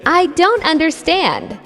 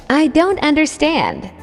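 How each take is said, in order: Both takes have the same delivery.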